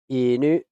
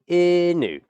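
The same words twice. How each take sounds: First: The pitch stays flat then steps up. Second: The pitch drops at the end. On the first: The speaker calls it right. "It's like a two-step flat" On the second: The speaker calls it wrong. "And drop"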